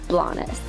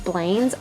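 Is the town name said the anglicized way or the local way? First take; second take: local; anglicized. First: The name is said with the local pronunciation. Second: The name is said with an anglicized pronunciation. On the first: The speaker calls it right. "the proper pronunciation pronunciation we learned is Blanes" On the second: The speaker calls it wrong. "We did mistakenly pronounce it as Blanes"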